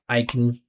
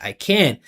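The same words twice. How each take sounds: First: Can is short with its vowel nearly gone. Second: Can has a full vowel and high pitch. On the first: Can is a function word here. "make it even smaller, more aggressive. Remove the vowel sound" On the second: Can is a content word here. "put a lot of attention on that vowel sound, and make the pitch go way up, sing it"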